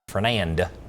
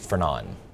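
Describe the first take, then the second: First: The final D sound is pronounced. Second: The final D sound is left silent. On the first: The speaker calls it wrong. "so it's not Fernand" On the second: The speaker calls it right. "you just don't pronounce the D"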